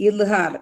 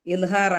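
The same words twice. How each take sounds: The two takes are said the same way.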